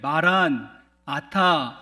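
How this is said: The break comes after 'maran'. The Lord has already come. "마란 아타 이렇게 끊어서 읽게 되어지면 우리 주께서 오셨다"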